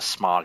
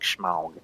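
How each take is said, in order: First: The name begins with a plain 'sm' sound. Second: The name begins with a 'shm' sound. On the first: The speaker calls it right. "Instead of smog" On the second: The speaker calls it wrong. "it sounds like Schmaug"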